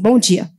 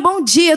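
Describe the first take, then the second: First: It is said in a curt, cold way. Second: It is said in a warm, cheerful way. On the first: The speaker seems distant and impolite. "o cara já vai falar assim, nossa, que pessoa mal educada" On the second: The speaker seems overly familiar. "do jeito que eu estava aqui mais cedo"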